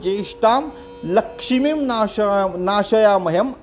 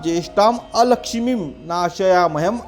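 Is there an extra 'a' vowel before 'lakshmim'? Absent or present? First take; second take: absent; present. First: No 'a' vowel is heard before 'lakshmim'. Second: An 'a' vowel is heard before 'lakshmim'. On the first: The speaker calls it wrong. "हम हमेशा लक्ष्मीम नाशयामहम बोलते हैं।" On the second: The speaker calls it right. "यह इसका सही उच्चारण है।"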